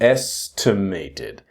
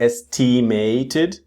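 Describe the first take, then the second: First: The second syllable is said weakly. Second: The second syllable is said strongly. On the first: The speaker calls it right. "but estimated" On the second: The speaker calls it wrong. "It's not estimated"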